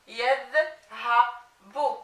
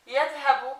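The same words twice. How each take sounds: First: Yadhabu broken into slow, separate syllables; very slow, segmented "yadhabu" for a learner. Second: Said in the usual way. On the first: Shown as a demonstration. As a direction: sound out "yadhabu" with gaps between the parts. Teacher assembles word from spelled syllables.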